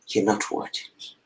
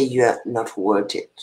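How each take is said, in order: First: A quick, soft, breathy whisper of the cruel words; whispered echo. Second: Said in the usual way. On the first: Retold or imitated. Echoing the words that rejected her, in a quick whisper. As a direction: let it drop to a hurt whisper, fast.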